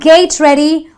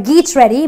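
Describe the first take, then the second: First: The first word has a long ay vowel. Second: The first word has a long ee vowel. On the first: "It's not gate ready" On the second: "or geet ready"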